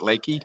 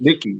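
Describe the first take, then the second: First: The first vowel sounds like the one in 'lake'. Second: The first vowel sounds like the one in 'lick'. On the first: The speaker calls it wrong. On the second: The speaker calls it right.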